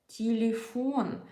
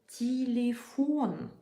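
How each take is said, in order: No difference in how they are said.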